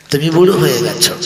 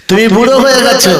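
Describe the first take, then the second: First: Said in the usual way. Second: তুমি বুড়ো হয়ে গেছো cried out much higher and louder, stress on হয়ে; pleading cry. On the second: Acted. Daughter cries out to her mother, high loud plea. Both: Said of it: "repeated louder".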